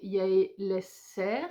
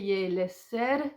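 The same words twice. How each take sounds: First: The final R is not rolled. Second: The final R is rolled.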